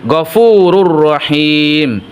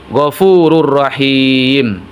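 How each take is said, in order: Both takes have the same delivery.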